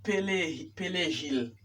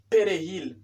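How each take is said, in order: First: "perejil" said as "pelejil"; "perejil" mispronounced as pe-le-HIL; learner's L for R. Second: "Perejil" with a tapped R; "Perejil" as pe-re-HIL; correct R. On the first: Retold or imitated. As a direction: imitate the mistake, "perejil" with L replacing R. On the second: Shown as a demonstration. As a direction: say "Perejil" with R, not L. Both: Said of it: "No es".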